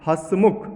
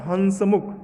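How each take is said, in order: First: हंसमुख as "hãs-mukh", no full n; nasalised vowel. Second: हंसमुख as "han-sa-mukh" with a clear n; full "n" sound. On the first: Teacher giving the correct word, nasalised vowel. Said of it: "ह पर चंद्र बिंदु होगा". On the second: Teacher reading the misspelt word, full "n" sound. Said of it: "गलत है". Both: Shown as a demonstration.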